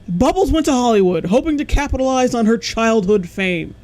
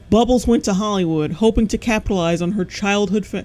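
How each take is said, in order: First: It is read in a put-on narrator voice. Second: It is read in his normal voice.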